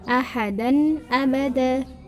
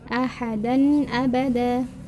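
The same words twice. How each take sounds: First: The n sound is pronounced clearly. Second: The same.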